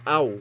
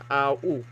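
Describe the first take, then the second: First: The two vowels glide together into one sound. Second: The two vowels are said as separate sounds. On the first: The speaker calls it right. "Tawag dyan diphthong" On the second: The speaker calls it wrong. "hindi a, u"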